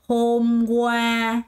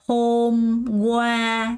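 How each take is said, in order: No difference in how they are said.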